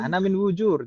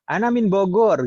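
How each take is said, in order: First: The place name has a j sound. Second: The place name has a hard g sound. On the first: The speaker calls it wrong. "jangan gitu" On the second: The speaker calls it right. "ya bilang ana min Bogor gitu ya"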